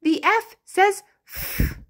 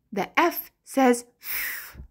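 First: Sing-song answer. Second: Said in the usual way. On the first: Shown as a demonstration. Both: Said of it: "What does the letter F say".

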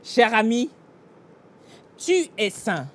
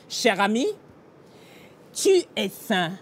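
Both takes have the same delivery.

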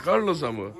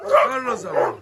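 First: Said in the usual way. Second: "Carlos'a mı" squeaked very high and teasing; pet talk. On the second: Real, not acted. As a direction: ask the dog in a high, doting squeak. Cooing question to the dog.

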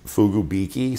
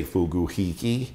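First: Fugubiki said foo-goo-BEE-kee. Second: Fuguhiki said foo-goo-HEE-kee. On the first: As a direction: say Fugubiki with b in the third syllable. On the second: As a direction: say Fuguhiki with h in the third syllable. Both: Shown as a demonstration. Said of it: "Some people say Fuguhiki".

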